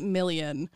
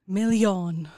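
First: The name is said with English pronunciation. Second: The name is said with French pronunciation. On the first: The name is treated as non-French. "I would pronounce this if I knew she wasn't French" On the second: The name is treated as French. "because it's French"

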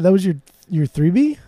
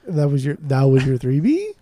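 First: The pitch rises mildly at the end. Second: The pitch rises strongly at the end.

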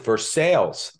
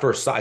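First: It is said the way locals say it. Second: It is said the familiar, widely known way. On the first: This is how the town's residents say the name. The speaker calls it right. "but they pronounce it Versailles" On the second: This is how outsiders expect the name to sound. The speaker calls it wrong. "It's not Versailles"

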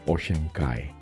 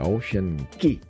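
First: The last word rhymes with 'sky'. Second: The last word rhymes with 'see'. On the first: The speaker calls it right. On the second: The speaker calls it wrong.

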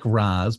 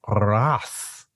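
First: A plain R, and it ends in z. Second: A rolled R, and it ends in s. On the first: "It's basically like Raz" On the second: "the R is rolled and the Z is an S. So Ra's"

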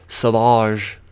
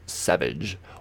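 First: The name is pronounced an odd, unusual way. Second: The name is pronounced the ordinary English way.

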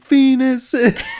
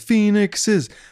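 First: The plural ends with an 'ices' sound. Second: The plural ends with an 'ixes' sound. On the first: This is the alternative plural form. "they learn that it's Phoenixes" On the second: This is the usual plural form. "they think it sounds weird"

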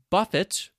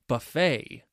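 First: The final T is pronounced. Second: The final T is silent. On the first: To be hit or struck repeatedly. "with the T sound before" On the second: A large meal where you serve yourself. "other words that have a silent T"

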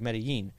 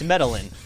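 First: The double L has a standard Spanish sound. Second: The double L is said as an English L. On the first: "If you pronounce it like Spanish, you know, with the double L's"

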